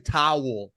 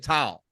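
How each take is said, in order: First: The vowel is the full 'ow' sound of towel. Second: The vowel is flattened, sounding close to tile. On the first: This is how someone else says the word. "I don't say towel" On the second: This is how the speaker says the word. "I say towel"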